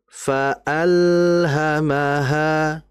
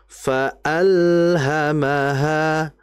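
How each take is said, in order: No difference in how they are said.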